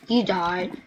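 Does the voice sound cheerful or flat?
flat. It is said in a flat, plain way. Dying is bad news.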